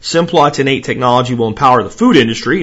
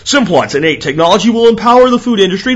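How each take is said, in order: First: It is read in an ordinary speaking voice. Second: It is read in a put-on announcer voice.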